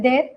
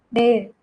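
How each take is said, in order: First: "there" as Indian speakers say it, dental d, rising; Indian pronunciation. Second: "there" with a hard retroflex-like d, falling; "there" in a teacher's American accent, low and falling; American pronunciation. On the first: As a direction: say "there" the Indian way, tongue on the teeth. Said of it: "हम लोग क्या बोलते हैं". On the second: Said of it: "there बोलते हैं". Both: Shown as a demonstration.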